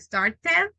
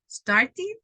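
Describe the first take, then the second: First: The ending is pronounced as a full 'ed'. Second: The ending is pronounced as a light 'id'. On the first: The speaker calls it wrong. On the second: The speaker calls it right.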